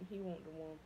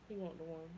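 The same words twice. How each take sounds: The two takes are said the same way.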